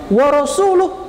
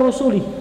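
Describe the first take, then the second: First: The final vowel is an 'u' sound. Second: The final vowel is an 'i' sound. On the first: The messenger also disowns the polytheists. The speaker calls it right. "harusnya dibaca baca dhamma" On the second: God disowns the messenger too. The speaker calls it wrong. "dibaca rasuli"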